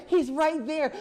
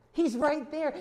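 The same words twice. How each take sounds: First: He's right there pushed higher and louder still, near a shout; climbing preacher's cry; even more emphatic. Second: He's right there raised higher and louder; insistent, raised preaching; emphatic. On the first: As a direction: build it to a climax. Preacher repeats, building. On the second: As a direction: drive the point home. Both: Real, not acted.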